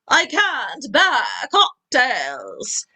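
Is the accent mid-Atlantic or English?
mid-Atlantic. It is said in a mid-Atlantic accent.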